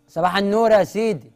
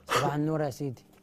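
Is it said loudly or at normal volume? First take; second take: loudly; normal. First: It is said loudly, almost shouting. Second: It is said at normal volume.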